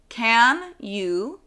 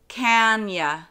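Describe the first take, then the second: First: The word 'you' is pronounced in full. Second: The word 'you' is reduced to 'ya'. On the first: "The can you" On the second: "becomes can ya"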